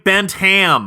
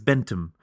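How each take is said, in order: First: It is said in a non-British accent. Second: It is said in a posh British accent. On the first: The name sounds sleazy. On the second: The name sounds respectable. "if you have a received pronunciation"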